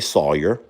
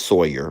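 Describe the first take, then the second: First: The first syllable sounds like 'saw'. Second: The first syllable sounds like 'soy'. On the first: The speaker says it this way. The speaker calls it right. "I say Sawyer ... like Tom Sawyer" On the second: Someone else says it this way. The speaker calls it wrong. "Jamie says Sawyer, ... I don't know where she sees the O Y at"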